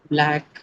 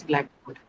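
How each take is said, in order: First: A teacher modelling Blackboard with first-syllable stress; stress on the first part. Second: Said in the usual way. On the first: Shown as a demonstration. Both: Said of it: "stress is automatically on the first one".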